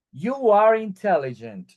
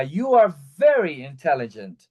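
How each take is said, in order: First: Said in the usual way. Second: "very" leaned on, the main push of the sentence; stress on very. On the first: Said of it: "No es lo mismo que yo diga". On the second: Shown as a demonstration. Teacher to students, showing how very adds emphasis, stressing "very". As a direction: hit "very" to boost "intelligent". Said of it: "a que yo diga".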